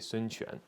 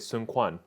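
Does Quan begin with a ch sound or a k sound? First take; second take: ch sound; k sound. First: Quan begins with a ch sound. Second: Quan begins with a hard k sound. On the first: The speaker calls it right. "you say Sun Quan" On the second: The speaker calls it wrong. "you don't say Sun Quan"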